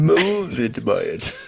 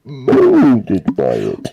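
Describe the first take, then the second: First: Plain; Bane impression. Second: Muffled Bane voice through a cup, slow and loud; talking into a glass. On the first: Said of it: "worst Tom Hardy impersonation". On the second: Retold or imitated. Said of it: "You just talk into a cup".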